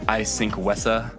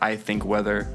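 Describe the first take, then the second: First: The th sounds are pronounced as s. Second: The th sounds are pronounced as th. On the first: This is how the lyric sounds when sung. "it kind of sounds like he's saying" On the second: These are the words actually sung. "He says"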